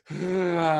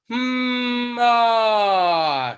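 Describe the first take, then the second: First: It is said with lots of breath escaping. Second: It is said with trapped breath and resonance.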